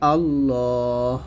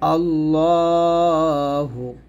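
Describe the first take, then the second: First: The word ends on 'h' with no vowel. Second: The word ends with a short 'u' vowel. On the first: The reader stops after the word. "এখানে আমি যে থামি তাহলে হবে আল্লাহ" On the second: The reading continues without a stop. "আল্লাহু আছে"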